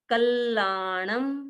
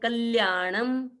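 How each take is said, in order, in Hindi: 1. बीच में दोहरा l जैसा बोला जाता है। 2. बीच में l और उसके बाद y जैसा बोला जाता है। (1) "आधा ल फिर वापिस ला" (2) "कई कई लोग बोल देते हैं"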